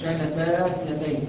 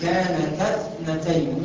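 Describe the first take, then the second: First: The long vowel is kept before the next word. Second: The long vowel is dropped before the next word. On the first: The speaker calls it wrong. "مش كانتا اثنتين" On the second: The speaker calls it right. "هنقول كانتا اثنتين"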